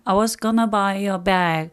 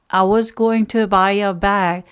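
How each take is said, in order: First: "Going to" is reduced and run together as "gonna". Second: "Going to" is said in full, every syllable.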